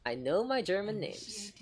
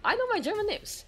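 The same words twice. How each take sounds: First: Slow playful whisper. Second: Squeaky playful brag; mock proud boast. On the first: Pretend. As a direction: whisper it like a secret. Boast repeated as whisper. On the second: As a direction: boast it way up high. Playful boast, then whispered.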